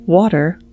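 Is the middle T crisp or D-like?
D-like. The middle T sounds like a soft D.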